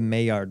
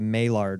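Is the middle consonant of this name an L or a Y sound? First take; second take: Y; L. First: The middle consonant is said like a Y. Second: The middle consonant is said like an L. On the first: The speaker calls it right. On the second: The speaker calls it wrong.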